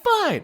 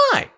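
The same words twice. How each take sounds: First: Put-on high curt girlfriend "Fine.". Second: Said in the usual way. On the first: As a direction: snap "Fine." up high like her.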